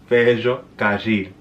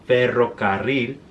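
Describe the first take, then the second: First: The R sounds are buzzy, like 'zh'. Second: The R sounds are strongly trilled. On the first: "the R will be more like ella" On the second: "instead of"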